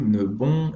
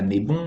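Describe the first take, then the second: First: The first vowel is a short neutral 'uh'. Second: The first vowel is a closed 'ay' sound. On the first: The speaker calls it right. "il y a juste ne" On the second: The speaker calls it wrong. "et pas né bon"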